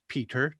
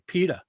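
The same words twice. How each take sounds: First: The middle consonant is a crisp T sound. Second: The middle consonant is a soft D sound. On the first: This is how another person says the name. "You pronounce my name as [name]" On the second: This is the speaker's own relaxed regional pronunciation. "I probably pronounce it more like a D"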